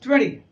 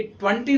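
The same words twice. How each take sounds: First: "ट्वेंटी" with the second T softened, tweh-nee; correct pronunciation of twenty. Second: "ट्वेंटी" with a full hard T, twun-tee; wrong pronunciation of twenty. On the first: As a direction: skim over the second T in "ट्वेंटी". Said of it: "this is ट्वेंटी". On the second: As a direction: sound the second T fully in "ट्वेंटी". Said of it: "ये ट्वेंटी नहीं होता". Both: Shown as a demonstration.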